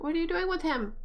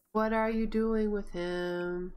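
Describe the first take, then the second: First: High, incredulous question; puzzled alarm. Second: Slow, drawn-out questioning; slow repeat. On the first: Player questions her Sim about the toddler, incredulous. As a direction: ask it high, in disbelief. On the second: Player questions her Sim about the toddler, slowly. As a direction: stretch out each word deliberately. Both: Real, not acted.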